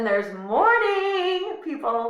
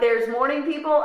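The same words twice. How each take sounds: First: It is said with strong, excited emphasis. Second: It is said plainly, without special emphasis.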